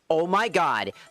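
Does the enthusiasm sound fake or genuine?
fake. It sounds like fake, put-on enthusiasm. The speaker calls it wrong. "Instead of"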